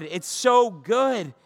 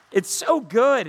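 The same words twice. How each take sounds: First: It's so good drawn out very slowly; slow, savoring. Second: Said in the usual way. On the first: Real, not acted. Preacher savoring the promise to the congregation, slowly. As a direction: linger on so, savoring it.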